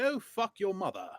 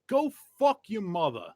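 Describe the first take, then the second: First: It is said in an American accent. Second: It is said in a British accent. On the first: It sounds crude. "as opposed to" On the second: It sounds classy. "Everything sounds classy with a British accent"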